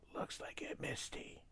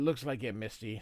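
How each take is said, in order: First: It is spoken in a whisper. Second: It is spoken in a normal voice.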